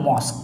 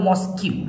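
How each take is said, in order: First: The word ends sharply on a 'k' sound. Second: The word ends with an extra 'kew' syllable. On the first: The speaker calls it right. "এটাকে বলা হয় মস্ক" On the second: The speaker calls it wrong. "স্টুডেন্টরা কিন্তু এটা ভুল করে বলে মস্কিউ"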